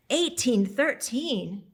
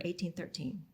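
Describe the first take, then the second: First: Slow, stunned, louder exclamation; stunned gasp of a date, spoken slowly; shocked realisation. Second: Said in the usual way. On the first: Acted. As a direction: let the date land in disbelief, drawn out.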